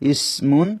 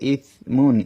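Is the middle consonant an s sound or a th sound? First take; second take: s; th. First: The middle consonant is an s sound. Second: The middle consonant is a th sound. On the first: The speaker calls it wrong. "আমি সার জায়গায় সিন পড়েছি" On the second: The speaker calls it right. "এখানে লেখা আছে"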